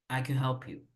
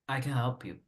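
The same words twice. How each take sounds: First: Can is said short with the vowel swallowed. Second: Can is said short with the vowel swallowed.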